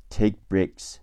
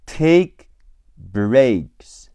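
First: "take breaks" run together with the first k unreleased; "take breaks" at natural speed, k barely sounded; joined, soft k. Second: "Take breaks" drawn out word by word, k barely released; slow demo of "Take breaks" with unreleased k; slow, soft k. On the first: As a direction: glide from "take" into "breaks" without popping the k. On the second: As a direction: separate "Take" and "breaks", swallowing each k. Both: Shown as a demonstration. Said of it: "Breaks的科也会轻声读或者不出声".

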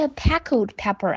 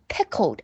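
First: Pickled pepper with the wrong vowel in pickled; wrong pronunciation. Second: Pickled with a short clear I and dark L ending; correct pronunciation. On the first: Teacher imitating a pupil's wrong pickled. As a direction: show the mistake pupils make in pickled. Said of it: "不是pickled pepper啊". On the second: Teacher correcting pupils with the right pickled. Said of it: "不是...是pickled". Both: Shown as a demonstration.

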